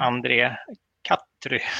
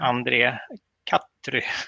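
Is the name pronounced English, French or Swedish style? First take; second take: English; English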